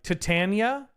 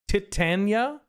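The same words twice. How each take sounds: First: The first syllable is only lightly emphasized. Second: The first syllable is strongly emphasized. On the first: "maybe less emphasis on the tit, but like" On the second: "maybe less emphasis on the tit"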